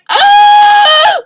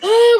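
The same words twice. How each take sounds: First: It is a loud, full-chested scream. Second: It is a quiet, gasped ah.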